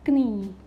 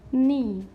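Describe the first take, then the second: First: Knee with the K sounded; wrong pronunciation demo. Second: Knee starting on N, silent K; correct silent-letter pronunciation. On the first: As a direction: say "knee" starting with a hard k. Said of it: "Not knee". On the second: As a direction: say "knee" with no k sound, loudly. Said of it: "This is". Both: Shown as a demonstration.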